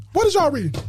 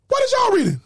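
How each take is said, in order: First: Said in the usual way. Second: Higher-pitched challenging question; demanding, raised-pitch question; insistent repeat. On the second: Real, not acted. Presses the same question, higher.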